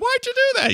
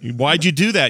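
First: It is said in a higher voice. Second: It is said in a normal voice.

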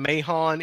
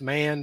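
First: The name is said with two syllables. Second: The name is said with one syllable. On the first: This is how the speaker thinks it should be said. The speaker calls it right. "I'm going to call him Mahon" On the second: This is how the player's name is actually said. The speaker calls it wrong. "even though it's pronounced Mann"

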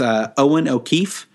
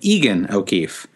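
First: The first name sounds like Owen. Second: The first name sounds like Egan. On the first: The speaker calls it right. "In first place is Owen O'Keefe" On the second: The speaker calls it wrong. "I called him Egan O'Keefe"

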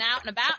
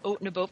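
First: It is said in a Southern American accent. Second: It is said in a Canadian accent. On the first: "It's pretty much the only two accents I have" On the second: "I'll have my Canadian accent back"

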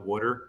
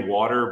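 First: It is said in a Philly accent. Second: It is said in a standard American accent.

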